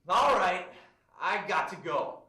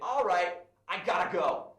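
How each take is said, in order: First: 'Got to' is said as two full words. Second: 'Got to' is reduced to 'gotta'. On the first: The speaker calls it wrong. "I wouldn't say got to" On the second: The speaker calls it right. "I'd actually change this to gotta"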